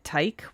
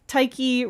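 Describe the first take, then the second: First: The word ends on a k sound, no vowel. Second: The word ends with an ee vowel sound. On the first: The speaker calls it wrong. "without the E sound at the end" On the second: The speaker calls it right. "rhyming with psyche"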